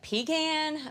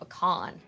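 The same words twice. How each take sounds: First: Pecan is said the non-Texan way. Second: Pecan is said the Texan way. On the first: This is how people outside Texas say it. "Some people call it pecan" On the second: This is how people in Texas say it. "in Texas, we call it pecan"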